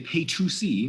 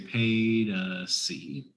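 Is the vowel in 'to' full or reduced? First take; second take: full; reduced. First: The word to has a full oo vowel. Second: The word to is reduced to uh. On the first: The speaker calls it wrong. "we don't really say pay to see" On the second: The speaker calls it right. "but we say pay to see"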